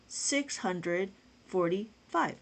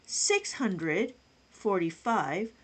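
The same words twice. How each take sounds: The two takes are said the same way.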